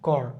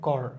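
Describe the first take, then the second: No difference in how they are said.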